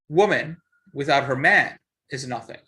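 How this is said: There is a pause after "man".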